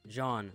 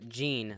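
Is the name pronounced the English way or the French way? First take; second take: French; English. First: The name is pronounced with French sounds. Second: The name is pronounced with English sounds. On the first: "like the French way" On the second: "like the English way"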